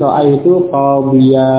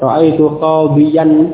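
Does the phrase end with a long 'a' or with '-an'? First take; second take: long a; -an. First: The last word ends with a long 'a'. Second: The last word ends with the nasal '-an'. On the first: The phrase is read at a stop. "ketika dibaca dengan waqaf, tanwinnya tersebut hilang dan digantikan oleh alif" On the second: The phrase continues without a pause. "asalnya, ra'aitu qabiyyan. Ya, dengan tanwin"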